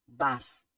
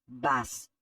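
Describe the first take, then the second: Both takes have the same delivery.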